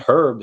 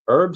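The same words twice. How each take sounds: First: It sounds like a man's name. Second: It sounds like the cooking herb. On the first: "sounds like just like a name of like an old man" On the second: "sounds like herbs that you put in in food"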